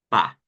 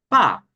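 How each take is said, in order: First: The syllable is light, in the neutral tone. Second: The syllable carries a full, marked tone.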